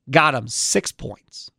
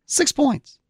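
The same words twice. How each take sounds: First: "six points" said low and slow; low, drawn-out landing on "six points"; deliberate low reveal. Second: "Six points" pitched high for emphasis; high-pitched, pointed echo on "Six points"; incredulous repeat. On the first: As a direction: lay out "six points" slowly, dropping the pitch. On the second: Repeats the low score in disbelief. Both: Real, not acted.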